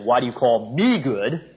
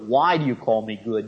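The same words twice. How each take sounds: First: The word "me" carries the main stress. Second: The word "good" carries the main stress. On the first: It questions why this particular person is called good. "Put the emphasis on the "me."" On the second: It questions what is meant by the word good. "Namely, what do you mean by good?"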